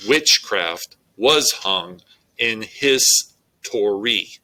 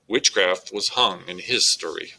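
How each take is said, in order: First: Slow, first syllables stressed; trochaic stress. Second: Said in the usual way. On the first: Shown as a demonstration. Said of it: "it reads". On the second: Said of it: "So when you read this out loud".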